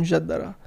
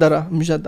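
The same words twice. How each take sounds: First: Mjaddara said the Arabic way; Arabic pronunciation. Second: Said in the usual way. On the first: Shown as a demonstration. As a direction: pronounce mjaddara with Arabic sounds. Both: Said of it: "I have to say with an Arabic accent".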